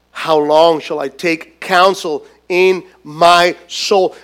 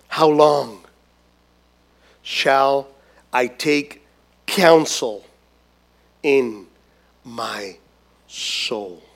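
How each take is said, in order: First: Said in the usual way. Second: Each word lower and softer, sinking to a near whisper on soul; fading lament. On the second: Acted. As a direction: let the question sink into despair. David's lament read out.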